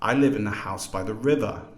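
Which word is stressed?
river. The main stress is on river.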